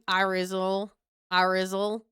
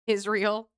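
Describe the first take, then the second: First: "Irizal" as EYE-rizzle; mock-Southern "Irizal", starting on a long I; imitated Southern pronunciation. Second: Said in the usual way. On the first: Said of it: "they would say it like".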